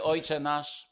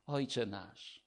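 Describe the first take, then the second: First: Said in the usual way. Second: Ojcze nasz said softly and intimately; whisper-close, like a child to its father; tender and soft. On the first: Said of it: "nawiązując do modlitwy". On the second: Retold or imitated. God teaching his child to pray, soft and tender. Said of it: "Pan Bóg mówi do ciebie".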